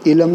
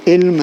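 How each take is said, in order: First: علم as two syllables "i-lam"; wrong pronunciation. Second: علم as one syllable "ilm"; correct pronunciation. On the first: Teacher rejecting the common reading, علم said "i-lam". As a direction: say علم with a vowel before m, "ilam". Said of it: "اس کا تلفظ علم نہیں ہے". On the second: Teacher giving the proper reading, علم said "ilm". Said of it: "علم نہیں ہے بلکہ". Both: Shown as a demonstration.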